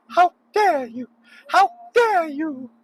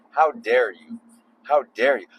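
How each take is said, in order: First: Much higher, slow, outraged falsetto scolding; a squeaky, drawn-out scold of pure indignation; Greta Thunberg impression. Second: Said in the usual way. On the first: Driver mocking other drivers in a squeaky outraged falsetto. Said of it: "Greta Thunberg". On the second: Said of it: "It's my, um, Greta Thunberg".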